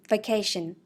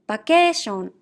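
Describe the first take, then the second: First: It is said with English pronunciation. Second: It is said with Japanese katakana pronunciation. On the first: "meaning vacation" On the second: "I will read in Japanese first"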